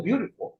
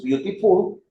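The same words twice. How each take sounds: First: American English with a soft flapped t in "beautiful"; "beautiful" in American English, t turned to a quick tap; American accent. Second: British English with a crisp t in "beautiful"; "beautiful" pronounced British, t clearly released; British accent. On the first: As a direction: say "beautiful" the American way, like "byoo-di-ful". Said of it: "si la pronuncio en inglés americano". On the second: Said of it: "si yo la pronuncio en inglés británico". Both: Shown as a demonstration.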